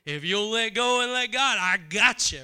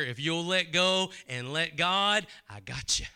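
First: Higher and louder, ringing out; fervent promise from God. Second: Gentle promise from God. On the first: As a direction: call the promise out with full force. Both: Acted. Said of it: "You hear the Spirit of God saying".

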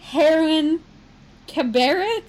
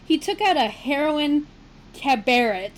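First: "heroin" said slowly, the word "cabaret" given extra stress as "KAB-uh-ray". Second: Said in the usual way. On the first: Shown as a demonstration. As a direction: carefully sound out "heroin" and "cabaret". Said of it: "is it heroin or heron". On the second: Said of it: "put that whole sentence together".

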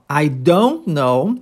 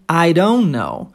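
First: "I don't know" drawn out slowly; "don't" linked into "know", D softened toward R; slow pronunciation demo. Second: "I don't know" drawn out slowly, the D softened toward R; "don't know" run together at half speed; slow pronunciation demo. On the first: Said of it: "a pronúncia aqui, ó". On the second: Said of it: "transformando o D em R". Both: Shown as a demonstration.

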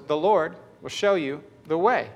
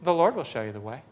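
First: Said in the usual way. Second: Calm, understated delivery in one run; composed, confident, no fuss; matter-of-fact. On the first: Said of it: "what I saw right in front of my eyes was". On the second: Retold or imitated. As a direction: say it evenly, as if routine. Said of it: "I just said matter-of-factly".

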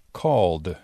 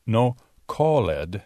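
First: Right way: "called" ending in d. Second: "called" said as two syllables, cal-led; wrong way: "called" with a spoken e-d. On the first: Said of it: "pero called". ("called" en una sílaba, terminando en d) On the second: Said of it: "No called, pero called". (pronunciación incorrecta de "called" con la "ed" sonando) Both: Shown as a demonstration.

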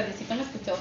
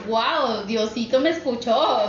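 First: Said in the usual way. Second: Retold wonder, drawn out; emocionada. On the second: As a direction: relive a touch of grateful amazement, stretching the words. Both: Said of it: "de la emoción de que dije".

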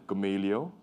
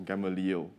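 First: Gamaliel said as guh-MAY-lee-o; alternative pronunciation. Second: Gamaliel said as GAM-uh-leel; alternative pronunciation. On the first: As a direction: say Gamaliel with stressed MAY in the middle. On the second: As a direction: say Gamaliel with stressed GAM at the start. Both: Shown as a demonstration. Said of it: "depending on whose pronunciation you use".

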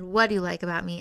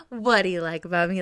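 First: Said in the usual way. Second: A light hint of smug, cute flirting; smug and flirty. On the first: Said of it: "it's so flirty 'cause he's like". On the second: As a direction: tease him a little, playfully. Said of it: "Like, so, like, smug and cute".

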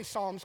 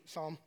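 First: "Psalms" with the L sounded; joking street-style "Psalms", L pronounced; street pronunciation. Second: Said in the usual way. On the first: Shown as a demonstration. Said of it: "'cause I'm from the street". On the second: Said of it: "but it's Psalm".

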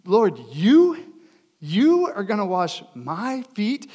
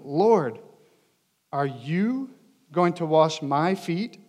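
First: "you" swoops up in disbelief, then "my" punched; emphatic "you" and "my". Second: Slow question with a lift on "you"; measured emphatic reading. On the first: Acted. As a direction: hit "you" and "my" hard, slowly. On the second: A narrator's reading. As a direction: read it slowly, leaning lightly on "you". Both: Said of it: "are, like, emphatic".

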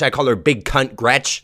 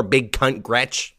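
First: Said in the usual way. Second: Big Cunt Gretch said slowly, each word spaced; slow nickname. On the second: Shown as a demonstration. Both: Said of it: "That's my nickname for her".

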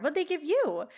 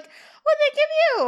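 First: Higher-pitched, sincerely curious; earnest question. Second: Very high, loud, drawn-out mock question; hammed-up, over-eager squawk; Topanga's over-earnest energy. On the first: Retold or imitated. Topanga questioning Corey about company perks, earnest. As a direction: ask it in innocent earnest. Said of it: "She is being very earnest this whole time". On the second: Mimicking Topanga in a very tense scene, weirdly over-earnest. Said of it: "it's very weird energy to be bringing".

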